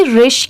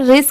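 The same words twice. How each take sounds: First: रिश ending in a clear sh sound. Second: रिश said as "ris", ending in a plain s; wrong s ending. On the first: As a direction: close रिश on sh, not s. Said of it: "वो श वाला sound आएगा". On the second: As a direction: end रिश on s instead of sh. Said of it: "रिश की sound नहीं आएगी". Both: Shown as a demonstration.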